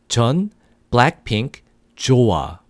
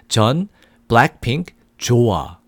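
Both takes have the same delivery.

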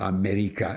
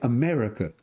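First: It is said with a foreign accent. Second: It is said without a foreign accent. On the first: The speaker calls it wrong. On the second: The speaker calls it right. "I said, Dad"

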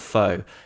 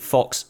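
First: The word ends on a vowel, no ks sound. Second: The word ends with a clear ks sound. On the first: "and not faux" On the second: "He pronounces it fox"

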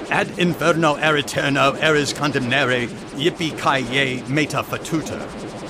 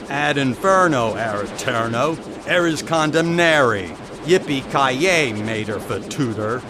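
First: It is read in a plain, natural voice. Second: It is read in a put-on, cowboy-style voice. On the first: "Not like that. You have to say it with authority" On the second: "Say it like John Wayne"

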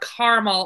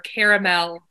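First: The word is said in an everyday, plain way. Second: The word is said in a fancier, refined way.

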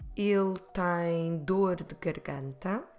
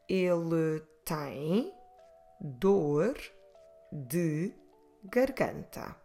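First: It is said more quickly. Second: It is said at a normal pace.

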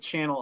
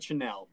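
First: It is said like the ordinary English word. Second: It is said with a French-like sound and stress. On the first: The speaker calls it right. "It's the Channel Islands" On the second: The speaker calls it wrong. "not the Chenal"

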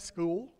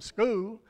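First: The word is said in a non-Southern accent. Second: The word is said in a Southern accent. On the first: This is a way picked up after living elsewhere. "she was kind of different then. She, ... she'd say school" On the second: This is the usual local way of saying it. "instead of saying school"

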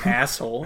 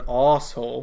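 First: It is said in an American accent. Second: It is said in a British accent. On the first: The speaker calls it wrong. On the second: The speaker calls it right.

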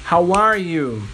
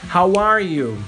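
Both takes have the same delivery.

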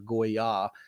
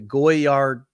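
First: The name is said with a French pronunciation. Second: The name is said with an American pronunciation. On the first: "It's more Goyard" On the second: "That's how we say it in America"

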